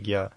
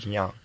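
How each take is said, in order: First: It is pronounced as gya, with a g sound. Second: It is pronounced as dnya, with a soft n. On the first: "лучше правильнее гья" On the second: "либо дня"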